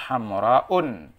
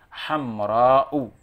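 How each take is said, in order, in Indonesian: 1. Kata ini diakhiri dengan vokal plus n. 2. Kata ini diakhiri dengan vokal biasa. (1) "tidak boleh kita bacanya hamra'un" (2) "Contohnya hamra'u"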